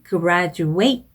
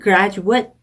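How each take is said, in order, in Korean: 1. 마지막 음절은 'eight' 소리로 끝나요. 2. 마지막 음절은 짧은 'at' 소리로 끝나요. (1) "동사는 graduate" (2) "그래서 형용사 명사는 graduate"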